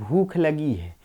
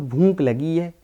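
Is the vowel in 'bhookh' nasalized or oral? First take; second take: oral; nasalized. First: Oral vowel with an aspirated final kh sound. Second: Nasalized vowel with an unaspirated final k sound. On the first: "जैसे हम लोग कहते हैं" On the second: "खड़ी बोली क्षेत्र वाले लोग कहते हैं"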